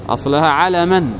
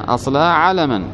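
The two takes are said the same way.

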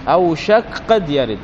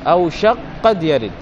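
The two takes are said the same way.

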